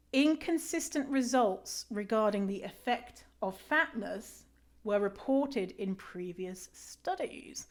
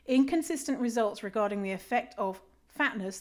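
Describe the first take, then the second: First: Slow, whispered incredulous reread; reading in disbelief. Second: Said in the usual way. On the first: Shown as a demonstration. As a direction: reread it slowly, hushed, can't believe it. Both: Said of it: "Let me read that again".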